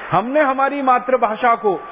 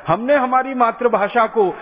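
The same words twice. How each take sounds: The two takes are said the same way.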